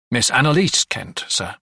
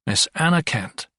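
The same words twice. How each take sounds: First: "Annalise" with its ending "-lise" picked out; stress on last syllable. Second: Said in the usual way. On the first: A narrator's reading. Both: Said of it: "emphasizing the last syllable in Annalise".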